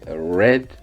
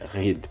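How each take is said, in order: First: It is pronounced as the past-tense form. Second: It is pronounced as the simple present form. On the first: The reading happened in the past. The speaker calls it right. "au prétérit de le prononcer read" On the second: The reading happens in the present. The speaker calls it wrong. "read, c'est la forme simple"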